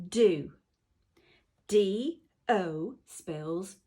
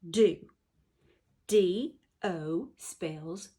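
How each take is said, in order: No difference in how they are said.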